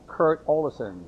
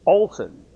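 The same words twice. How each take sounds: First: "Olesen" in three syllables, sounding the middle E; "Olesen" with its middle vowel heard; E pronounced. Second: "Olsen" in two syllables, the middle E dropped; "Olsen" with no vowel between l and s; silent middle E. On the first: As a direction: say "Olesen" as OH-leh-sen. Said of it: "E is sort of not pronounced". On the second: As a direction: say "Olsen" as OL-sen, punched loud and high. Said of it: "the E is sort of not pronounced". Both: Shown as a demonstration.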